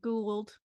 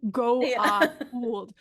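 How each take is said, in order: First: It is said as one syllable, like 'gould'. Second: It is said as two syllables, beginning 'go'. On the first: This is how another character says it. "he's always like Gould" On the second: This is how one character says it. "Teal'c from the first episode pronounces it Goa'uld"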